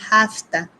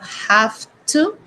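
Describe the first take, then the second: First: The words blend into one short reduced word. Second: Both words are said fully and separately. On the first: "we're going to say hafta" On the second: "instead of have to"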